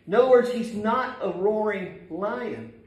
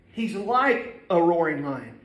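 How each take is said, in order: First: Not pressed in he's not a roaring lion; he's not a roaring lion with not underlined; stress on not. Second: Like drawn out and pressed, slower; He's like a roaring lion, like stressed and stretched. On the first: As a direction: lean on not, say it firm. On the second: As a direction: slowly lean hard on like. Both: Shown as a demonstration.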